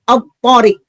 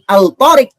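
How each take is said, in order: First: The L sound is dropped into the next letter. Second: The L sound is clearly pronounced. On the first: The speaker calls it right. "Lamnya hilang hurufnya" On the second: The speaker calls it wrong. "bukan al-tariq"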